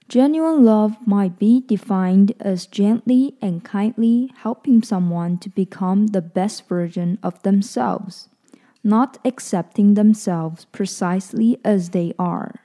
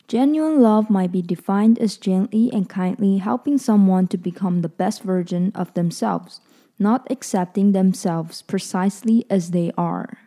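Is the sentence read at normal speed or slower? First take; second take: slower; normal. First: It is read a little more slowly. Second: It is read at a normal speed.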